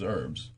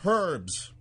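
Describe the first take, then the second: First: The word is said the American way. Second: The word is said the Australian way. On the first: This is the speaker's own usual way of saying it. "I pronounce herbs as herbs" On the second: Someone else insisted this was the correct way. "This one lady yelled out at a seminar, "It's pronounced herbs.""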